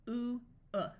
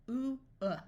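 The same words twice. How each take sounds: No difference in how they are said.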